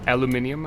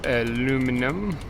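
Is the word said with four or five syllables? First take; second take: five; four. First: It is said with five syllables, British style. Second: It is said with four syllables, American style.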